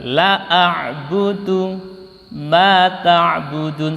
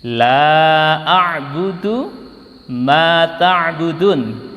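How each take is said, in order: First: The vowel in 'la' is cut short. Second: The vowel in 'la' is held long. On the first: I will indeed worship what you worship. The speaker calls it wrong. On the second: I will not worship what you worship. The speaker calls it right.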